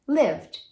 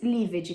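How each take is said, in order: First: The ending is just a d sound. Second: The ending is said as an extra syllable. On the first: The speaker calls it right. "vai ser lived" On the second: The speaker calls it wrong. "Nunca mais lived"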